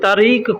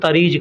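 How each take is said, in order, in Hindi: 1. शब्द 'q' ध्वनि पर खत्म होता है। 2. शब्द 'j' ध्वनि पर खत्म होता है।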